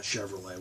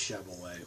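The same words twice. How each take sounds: First: Chevrolet with a sounded r; non-Boston pronunciation. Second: Chevrolet with a dropped r, Boston accent. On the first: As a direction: say Chevrolet as "Shev-er-lay". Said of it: "not Chevrolet". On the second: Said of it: "we'll say it's Chevrolet". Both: Shown as a demonstration.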